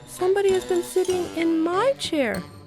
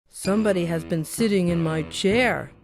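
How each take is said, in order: First: It is said in a soft, gentle voice. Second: It is said in a big, gruff voice.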